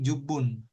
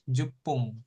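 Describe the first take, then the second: First: "jubun" with a voiced b, falling tune. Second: "jupung" said with a hard p and ng ending; "jupung" spoken slowly with a clear p. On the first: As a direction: say "jubun", b sound, ending in n. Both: Shown as a demonstration. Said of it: "pengucapannya beda".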